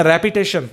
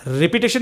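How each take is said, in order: First: रेपिटेशन with "reh" at the start; correct repetition pronunciation. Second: रिपीटेशन with a long "ree" at the start; mispronounced repetition. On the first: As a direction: say रेपिटेशन starting "reh-pi", not "ree-pee". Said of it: "रिपीटेशन नहीं बोलते हैं, रेपिटेशन". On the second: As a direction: say रिपीटेशन starting "ree-pee", not "reh-pi". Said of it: "नहीं बोलते हैं". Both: Shown as a demonstration.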